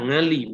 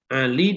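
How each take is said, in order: First: The name begins with an 'ng' sound. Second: The name begins with an Arabic throat sound. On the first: "Orang Jawa ... dibaca Ngali"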